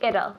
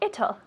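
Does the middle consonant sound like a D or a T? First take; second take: D; T. First: The middle consonant sounds like a soft D. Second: The middle consonant sounds more like a T. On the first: "we have this American accent. So we say it'll, like a D" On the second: "if you prefer British, you say it'll, right? A little more of a T"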